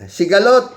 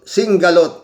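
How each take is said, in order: First: No n sound comes before the g. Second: An n sound comes before the g. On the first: The speaker calls it right. "Anong Singalot?" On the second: The speaker calls it wrong. "Talagang yun ang pronunciation niya doon sa Sigalot"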